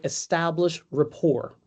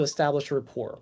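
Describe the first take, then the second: First: "establish rapport" said slowly, each word weighted; slow emphasis. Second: Said in the usual way. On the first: Shown as a demonstration. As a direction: stretch out "establish rapport" with heavy stress. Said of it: "stands for". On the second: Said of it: "You have to be able to establish rapport".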